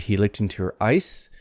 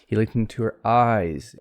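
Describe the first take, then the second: First: The final sound is a voiceless S, vowel short. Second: The final sound is a voiced Z, vowel lengthened. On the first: It sounds like frozen ice. The speaker calls it wrong. "that sounds kind of funny" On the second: The speaker means someone's eyes. The speaker calls it right. "the S becomes voiced into sort of a Z sound"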